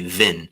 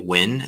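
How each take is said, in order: First: The word begins with a v sound. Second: The word begins with a w sound.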